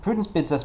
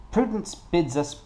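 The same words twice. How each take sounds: First: Said in the usual way. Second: Slow, higher attempt at French accent; French-accented narrator, drawn out and higher. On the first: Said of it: "no, I'm not doing a French accent". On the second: Shown as a demonstration. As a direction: try out a tentative French accent. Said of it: "maybe I should try in a French accent".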